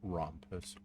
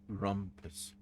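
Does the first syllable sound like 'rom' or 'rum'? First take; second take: rom; rum. First: The first syllable sounds like 'rom'. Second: The first syllable sounds like 'rum'. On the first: The speaker calls it wrong. "Not Rompus" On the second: The speaker calls it right. "I mispronounce everything"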